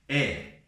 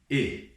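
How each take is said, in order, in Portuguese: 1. A vogal é aberta. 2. A vogal é fechada. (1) "Não temos é" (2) "sempre será e"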